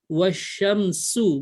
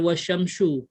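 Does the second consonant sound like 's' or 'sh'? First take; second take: s; sh. First: The second sibilant is a plain s sound. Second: The second sibilant is an sh sound. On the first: The speaker calls it right. "Dia sin" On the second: The speaker calls it wrong. "bukan shin lagi"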